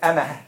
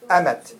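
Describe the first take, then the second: First: The word ends with an h sound. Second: The word ends with a t sound. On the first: The word stands alone at a pause. "You stop at the تاء, so you say أمه" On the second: The word is joined to a following word. "But if you continue, what do you say?"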